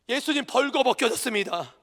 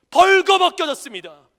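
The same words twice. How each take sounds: First: Said in the usual way. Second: 벌거벗겨졌습니다 thundered out much louder, falling at the end; loud climax. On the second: Acted. Pastor proclaiming 벌거벗겨졌습니다 to the congregation, thundering. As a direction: hit 벌거벗겨졌습니다 with full force.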